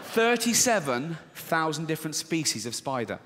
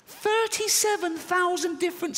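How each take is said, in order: First: Said in the usual way. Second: Thirty-seven thousand said way up high in panic; mock-terrified high-pitched repeat; high squeal. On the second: Shown as a demonstration. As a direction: squeal the number in horror. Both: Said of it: "repeated in high voice".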